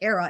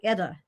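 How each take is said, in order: First: The middle consonant is an R sound. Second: The middle consonant is a D sound. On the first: "it won't sound like era" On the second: "It'll sound like Edda"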